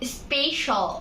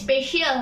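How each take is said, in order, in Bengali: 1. শেষ অংশটি 'shal' হিসেবে বলা হয়। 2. শেষ অংশটি 'shee-al' হিসেবে বলা হয়। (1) "এটা হবে" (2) "এটা স্পেশাল না"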